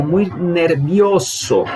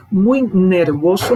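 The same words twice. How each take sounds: First: "muy nervioso" said very slowly with the i in "nervioso" clear; correct form. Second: "Muy nervoso" said slowly as the wrong form, drawn out. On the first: Teacher giving the correct "muy nervioso", very slowly. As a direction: stretch "muy nervioso" out, every sound distinct. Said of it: "é o correto em espanhol". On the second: Teacher showing the student's wrong "Muy nervoso", slow. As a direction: say "Muy nervoso" as the mistake to correct. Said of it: "não". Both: Shown as a demonstration.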